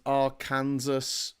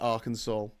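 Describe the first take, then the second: First: The ending sounds like the word Kansas. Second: The ending sounds like the word saw. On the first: It is read as it is spelled. "a state called" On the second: It is said the way people actually say it. "but it's pronounced"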